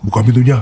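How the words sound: It is said in a deep, heavy voice.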